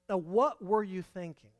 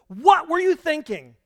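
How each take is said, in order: First: It sounds like a genuine, inviting question. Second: It sounds like an accusing exclamation.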